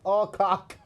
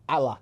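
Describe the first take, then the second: First: The name is said with a clear 'cock' ending. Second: The name is said with a soft 'lak' ending. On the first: The speaker calls it right. "Now I know it's Alcock" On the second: The speaker calls it wrong. "I'm going to purposely say her name wrong"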